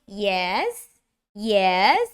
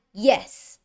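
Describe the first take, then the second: First: YES dipping, then rising; drawn-out questioning dip and rise on YES; down-and-up tune. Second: YES dropping firmly in pitch; falling tune. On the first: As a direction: take "yes" down and back up. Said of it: "you go down and up". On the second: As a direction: say "yes" with a decisive fall. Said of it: "going down". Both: Shown as a demonstration.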